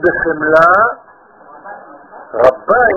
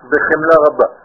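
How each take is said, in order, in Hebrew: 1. יש הפסקה שמפרידה בין המילה הראשונה לשנייה. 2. המילים נאמרות ברצף, בלי הפסקה. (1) "לא אומרים בחמלה רבה" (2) "אנשים טועים ואומרים בחמלה רבה"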